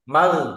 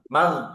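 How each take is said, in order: Both takes have the same delivery.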